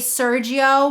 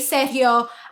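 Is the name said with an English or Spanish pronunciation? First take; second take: English; Spanish. First: The name is said with an English pronunciation. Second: The name is said with a Spanish pronunciation.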